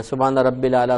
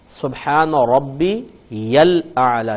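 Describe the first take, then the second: First: رب said short, without the ی of ربی; wrong pronunciation. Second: ربی said slowly, its ی joined to the لام of الاعلی; correct pronunciation. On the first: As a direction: say رب الاعلی with no ی after رب. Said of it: "بعض لوگ ہمارے غلطی کرتے ہیں". (غلط تلفظ، رب بغیر ی کے) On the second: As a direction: stretch ربی and run the ی into الاعلی. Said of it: "یہ کو لام سے ملانا". (درست تلفظ، ربی کی ی کو لام سے ملا کر) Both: Shown as a demonstration.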